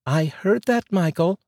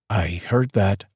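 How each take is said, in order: First: High female voice, rising, teasing; wife calling out, high and teasing; wife catching him out. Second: Said in the usual way. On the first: Acted. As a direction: let him know you caught that. Wife catches husband's muttered remark. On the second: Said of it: "came from the garage".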